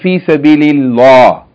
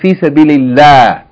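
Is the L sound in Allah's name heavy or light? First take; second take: heavy; light. First: The L is heavy, said with a full mouth. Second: The L is light, said with a thin mouth. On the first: The speaker calls it wrong. "You don't say Fi Sabilillah" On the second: The speaker calls it right. "You say Fi Sabilillah"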